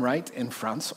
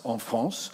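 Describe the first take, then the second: First: Said in the usual way. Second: "en France" said the French way, nasal en and uvular r; French pronunciation. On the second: Shown as a demonstration. Pastor showing off his French to the congregation, lightly French. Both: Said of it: "see the way I did that".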